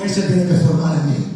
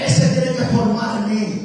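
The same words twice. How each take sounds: First: It is said with ordinary energy. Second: It is said with more enthusiasm.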